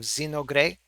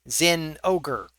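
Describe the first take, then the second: First: The name is said with Japanese-style syllables. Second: The name ends like the English word ogre. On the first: "the Japanese way of" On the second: "would it be like Zin Ogre? I want to say Zin Ogre because it's got ogre in it"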